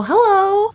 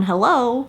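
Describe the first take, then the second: First: High bright answering-the-phone hello; phone greeting. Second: Said in the usual way. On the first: Retold or imitated. Answering a call from the manager, high sweet hello. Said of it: "I pick up the phone and go". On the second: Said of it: "I picked up the phone".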